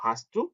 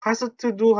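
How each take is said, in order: First: "hast du" run together as "hastu"; naturally linked. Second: "hast du" split up, with extra vowels after s and t; unlinked syllables. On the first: Teacher modelling the correct question, smoothly linked. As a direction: link "hast du" with a single t and no extra vowels. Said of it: "자연스럽게 발음이어서". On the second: Teacher showing what not to do, separate syllables. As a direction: say "hast du" as "ha-seu-teu du". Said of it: "hast du 하지 마시고". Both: Shown as a demonstration.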